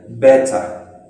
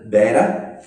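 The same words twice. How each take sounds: First: It is said with a British accent. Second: It is said with an American accent.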